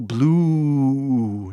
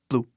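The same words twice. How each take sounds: First: The vowel is stretched out very long. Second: The vowel is short and clipped. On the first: "não precisa ser grande assim" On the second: "a pronúncia não é blue"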